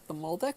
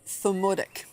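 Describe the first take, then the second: First: The word is said with an L sound. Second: The word is said without an L sound. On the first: The speaker calls it wrong. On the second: The speaker calls it right.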